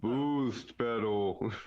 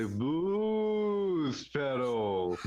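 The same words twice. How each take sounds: First: Slow, drawn-out salesman tone; shilly ad read. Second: Drawn-out, hammed-up pitch for the pedal; shilly ad read. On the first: Pretend. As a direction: stretch the name like a commercial. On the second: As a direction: sell it like a cheesy ad. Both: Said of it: "but even more shilly?".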